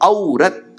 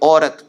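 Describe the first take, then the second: First: The first vowel is the diphthong au. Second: The first vowel is a plain o. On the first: This is how southern learners of Hindi say it. "அந்த ஒவ்வொரு அக்ஷரத்துக்கும் ரொம்ப அழுத்தம் கொடுத்துட்டு பேசுவோம்" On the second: This is how it is said in the north. "வடக்குக்கெல்லாம் போனீங்கன்னா"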